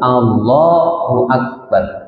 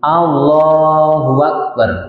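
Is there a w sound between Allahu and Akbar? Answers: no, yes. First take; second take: no; yes. First: No w sound links Allahu to Akbar. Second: A w sound links Allahu to Akbar. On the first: The speaker calls it right. "Pokoknya lafadznya tertentu" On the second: The speaker calls it wrong. "Kemudian hamzahnya diganti wawu"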